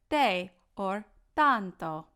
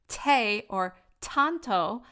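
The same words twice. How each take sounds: First: The T is dental, without a puff of air. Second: The T is aspirated, with a puff of air. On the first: The speaker calls it right. "but rather" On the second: The speaker calls it wrong. "not aspirated as how we speak them or sing them in English. So we're not going to sing"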